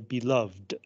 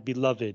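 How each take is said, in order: First: The final -ed is not a separate syllable. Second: The final -ed is a separate syllable. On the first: It describes something or someone. "if you use it as an adjective" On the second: It names a loved person. "You would say ED"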